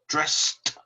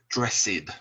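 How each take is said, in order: First: The word is said as one syllable. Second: The word is said as two syllables. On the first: The speaker calls it right. "we pronounce it with one sound" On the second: The speaker calls it wrong. "do not say dressed"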